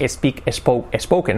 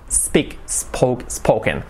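First: "speak, spoke, spoken" as "espeak, espoke, espoken"; added Spanish E. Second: "Speak, spoke, spoken" starting straight on a hissed S; no vowel before the S in "Speak, spoke, spoken"; clean initial S. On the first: Teacher shows the error to avoid, mispronunciation demo. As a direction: put an E before each S in "speak, spoke, spoken". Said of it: "Sobre todo que no sea". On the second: Teacher corrects the added E, clean S demo. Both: Shown as a demonstration.

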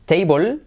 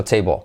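First: Table as "TEI-bol", full O and clear L; Spanish-style table. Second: Table as "teibo", L left unfinished; dark final L. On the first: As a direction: say table higher and rising, with a full final L. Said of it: "y no va a ser". (table como "téibol", ele clara) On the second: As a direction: say table falling, with the L swallowed. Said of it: "sino table". (table como "teibo") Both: Shown as a demonstration.

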